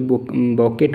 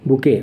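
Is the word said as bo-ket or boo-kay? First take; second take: bo-ket; boo-kay. First: It is said like bo-ket, ending in t. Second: It is said like boo-kay, with no final t. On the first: The speaker calls it wrong. "कोई बॉकेट मत कर देना" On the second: The speaker calls it right. "इसको प्रनाउंस करना है बुके"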